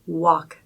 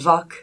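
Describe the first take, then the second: First: The word begins with a W sound. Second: The word begins with a V sound. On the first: The speaker calls it right. "can you do it properly?" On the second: The speaker calls it wrong. "the W will come off more like a V sound"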